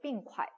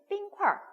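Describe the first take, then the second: First: The word ends plainly without an r-sound. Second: The word ends with an r-colored sound. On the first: This is the standard nationwide form. "보통 우리가 얼음을 얘기할 때 빙콰이라고 얘기해요" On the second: This is the Beijing dialect form. "북경 사람들은 빙콰, 얼 ... 북경 사투리"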